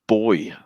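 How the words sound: The word is said the British way. "we would say boy"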